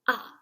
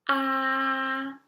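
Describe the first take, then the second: First: The pitch falls from high to low. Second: The pitch stays high and level. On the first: "The fourth tone is a falling tone" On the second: "For the first tone, it is the highest one"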